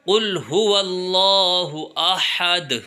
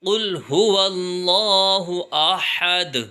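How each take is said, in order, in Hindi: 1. 'wallahu' से पहले की 'h' आवाज़ साफ़ बोली जाती है। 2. 'wallahu' से पहले की 'h' आवाज़ साफ़ बोली जाती है।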